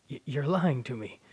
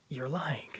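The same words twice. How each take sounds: First: A sharper, louder "you're lying to me"; "lying" pushed out hard in disbelief; louder accusing. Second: Said in the usual way. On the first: Acted. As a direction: raise the voice on "lying". Son denies father's death.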